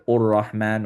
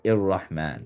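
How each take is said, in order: First: The word begins with a u vowel. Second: The word begins with an i vowel. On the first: "we don't say ur-Rahman" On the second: "or ir-Rahman"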